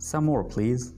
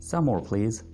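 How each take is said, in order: No difference in how they are said.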